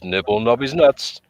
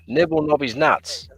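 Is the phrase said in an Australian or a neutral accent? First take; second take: neutral; Australian. First: It is said in the speaker's ordinary accent. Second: It is said in a put-on Australian accent. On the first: The speaker calls it wrong. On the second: The speaker calls it right.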